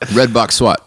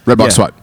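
First: The phrase is said slowly and clearly. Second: The phrase is said very fast.

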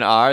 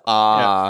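First: The word ends with a clear r sound. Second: The word ends in an open vowel, no r. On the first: "It's not even R" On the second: "it's ah"

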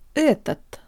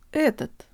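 Both takes have the same delivery.

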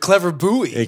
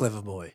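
First: Buoy is said American-style, like boo-ee. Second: Buoy is said like the word boy.

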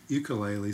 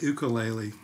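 First: It is said the American way. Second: It is said the Hawaiian way.

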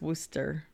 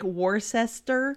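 First: The name is pronounced unlike its spelling. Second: The name is pronounced the way it is spelled. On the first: The speaker calls it right. "but I know it's Worcester" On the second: The speaker calls it wrong. "It looks like Worcester"

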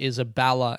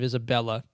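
First: It is said with a Melbourne pronunciation. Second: It is said with a standard pronunciation. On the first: "people say Isabella" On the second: "instead of Isabella"

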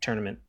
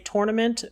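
First: The word is said quickly and loosely. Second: The word is said slowly and carefully. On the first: This is how it comes out when the speaker is tired. "when I get tired and I say it quickly" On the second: This is how the speaker intends to say it. "I want to say tournament"

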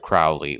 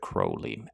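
First: The first syllable is not said like 'crow'. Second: The first syllable is said like 'crow'. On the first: This is the common way people say it. "For sake of how everyone calls him, Mr. Crowley will work" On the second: This is how the man himself said it. "I think the authentic pronunciation of the man was Crow"

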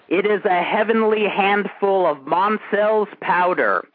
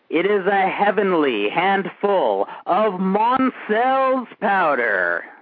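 First: It is spoken at a normal pace. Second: It is spoken slowly and drawn out.

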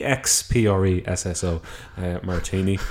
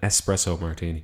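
First: The first word begins with an 'ex' sound. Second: The first word begins with an 'ess' sound. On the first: The speaker calls it wrong. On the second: The speaker calls it right.

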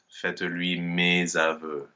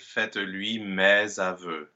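First: The vowel in 'mes' is a closed E. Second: The vowel in 'mes' is an open E. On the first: The speaker calls it wrong. "and not" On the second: The speaker calls it right. "The open end is better there"

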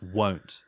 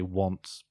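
First: The vowel is long, rhyming with 'don't'. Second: The vowel is short, rhyming with 'font'. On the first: The speaker calls it right. "That's actually pronounced won't" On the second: The speaker calls it wrong. "People just say want"

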